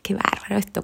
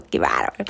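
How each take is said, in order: First: Voiced, higher "qué bárbaro esto" in delight; marvelling aloud. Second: "qué bárbaro" whispered in awe; whispered marvel. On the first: Showing how she marvels at life, voiced amazement. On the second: Showing how she marvels at life, whispered awe. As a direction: breathe "qué bárbaro" as a hushed aside. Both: Shown as a demonstration. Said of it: "Es como decir".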